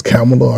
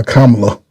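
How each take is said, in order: First: Kamala said the first of two ways; first variant of the name Kamala; one pronunciation of Kamala. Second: Kamala said the second of two ways; alternative pronunciation of Kamala. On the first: Unsure of the name, trying Kamala one way. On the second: Unsure of the name, trying Kamala another way. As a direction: other variant of the name Kamala. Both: Shown as a demonstration. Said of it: "They pronounce it different ways".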